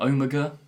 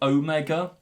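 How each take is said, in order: First: Omega is said with a British pronunciation. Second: Omega is said with an American pronunciation. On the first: The speaker calls it right. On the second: The speaker calls it wrong.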